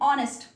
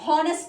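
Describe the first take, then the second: First: The word begins directly with a vowel sound. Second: The word begins with an audible H sound. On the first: The speaker calls it right. "ओ से pronunciation होगी" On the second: The speaker calls it wrong. "हॉनेस्ट नहीं"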